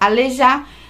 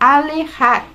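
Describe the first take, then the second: First: It is said with a Brazilian Portuguese pronunciation. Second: It is said with a Mexican Spanish pronunciation. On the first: It means being unable to walk. "a gente fala alejar no Brasil" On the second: It means moving away. "aqui a gente fala alejar"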